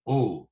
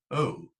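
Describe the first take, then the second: First: "oh" as a pure monophthong, louder; local oh. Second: "oh" with a gliding diphthong; southern oh. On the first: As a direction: say "oh" without a glide. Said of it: "lots of other local accents around do". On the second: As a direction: glide "oh" southern-style. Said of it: "rather than". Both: Shown as a demonstration. Lecturer contrasting local and southern "oh".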